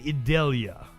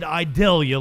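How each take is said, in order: First: The name is pronounced in the standard way. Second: The name is pronounced in a redneck-style way. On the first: The speaker calls it right. "But it is Hurricane Idalia" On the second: The speaker calls it wrong. "I said Idalia like a fucking redneck"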